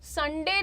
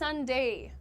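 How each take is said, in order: First: The last syllable has a plain single vowel. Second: The last syllable glides as a diphthong. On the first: The speaker calls it wrong. "संडे नहीं होता है" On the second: The speaker calls it right. "इसका एक अलग sound होता है ... diphthong"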